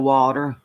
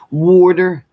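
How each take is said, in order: First: It is said without an East Coast accent. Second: It is said with an East Coast accent. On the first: "instead of" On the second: "I definitely picked up like um, water ... that's definitely East Coast"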